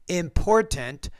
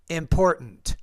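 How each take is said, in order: First: The T is pronounced as a full T. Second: The T is replaced by a glottal stop. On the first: The speaker calls it wrong. "instead of saying" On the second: The speaker calls it right. "we don't really pronounce that T"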